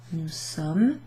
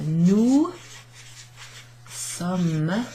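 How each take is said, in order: First: Said in the usual way. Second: "nous ... sommes" drawn out, long pause between the words; slow demonstration. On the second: Shown as a demonstration. Teacher writing out nous sommes for learners, slow demonstration. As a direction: say "nous" and "sommes" separately, each stretched. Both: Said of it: "Pronounce like the word Somme".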